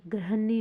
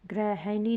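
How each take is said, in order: First: गृहिणी squeezed to "grah-nee"; corrected form. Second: गृहिणी as "gre-ha-nee", three beats; wrong form. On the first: Teacher giving students the correction, गृहिणी as "grahnee". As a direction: shorten the middle of गृहिणी. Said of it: "गृहिणी होगी". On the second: Teacher showing students the error, गृहिणी as "grehanee". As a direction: give गृहिणी a full middle "ha". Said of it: "गृहिणी नहीं". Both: Shown as a demonstration.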